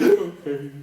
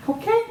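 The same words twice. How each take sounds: First: Small mock-tearful answer; hammed-up weepy agreement, louder; blubbering mess. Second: Very high questioning lilt; mock-soothing check-in, louder and squeaky high; coaxing colleague. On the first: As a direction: give in like someone who has been crying. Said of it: "I was just a blubbering mess". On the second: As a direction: lift it right up into a coaxing question. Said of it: "and she's like".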